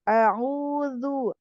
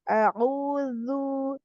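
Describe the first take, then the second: Both takes have the same delivery.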